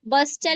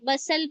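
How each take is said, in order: First: The t sound is pronounced. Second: The t sound is left silent. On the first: The speaker calls it wrong. "नहीं" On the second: The speaker calls it right. "पढ़ेंगे"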